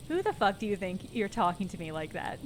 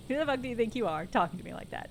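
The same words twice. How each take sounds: First: Said in the usual way. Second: Fast aggressive. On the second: Shown as a demonstration. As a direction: rattle it off fast. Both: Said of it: "There we go".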